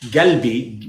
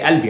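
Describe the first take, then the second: First: The word begins with a hard G sound. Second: The word begins with a vowel sound. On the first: Some regions say it this way. "you could say galbi with a ga" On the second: This is how the speaker learned it. "But I say albi"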